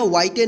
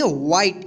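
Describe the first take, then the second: First: "व्हाइटे" with final e sounded; wrong pronunciation. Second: "व्हाइट" as one syllable, silent final e; correct pronunciation. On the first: Teacher warns pupils against a misreading, "व्हाइटे" with extra vowel. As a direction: add an "ay" after the t in "व्हाइटे". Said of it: "व्हाइटे नहीं पढ़ेंगे". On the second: Teacher answers how to read it, "व्हाइट" with silent e. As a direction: end "व्हाइट" on the t. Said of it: "इसको क्या पढ़ेंगे?". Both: Shown as a demonstration.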